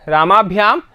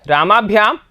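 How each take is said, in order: Both takes have the same delivery.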